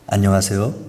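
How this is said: The greeting sounds slow, grave and solemn.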